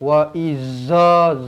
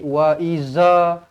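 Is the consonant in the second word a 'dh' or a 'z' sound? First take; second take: z; z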